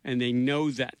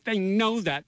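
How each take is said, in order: First: Said in the usual way. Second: "They know that" pitched up with emphasis; emphatic repeat. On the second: Real, not acted. Host reassuring listeners in an ad, emphatic raised "know that". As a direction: lean higher on "know" to insist.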